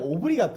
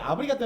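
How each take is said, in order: First: The first vowel is a rounded 'oh' sound. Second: The first vowel is an open 'ah' sound. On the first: The speaker calls it right. "아니라 오브리가또" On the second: The speaker calls it wrong. "아브리가또 아니라"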